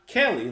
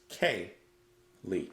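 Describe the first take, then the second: First: The name is run together as one word. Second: The name is split into two separate words. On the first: The speaker calls it wrong. "Not Kaylee, like together" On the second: The speaker calls it right. "it's Kay Lee"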